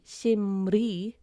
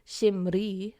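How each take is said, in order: First: The middle consonant sounds like L. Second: The same.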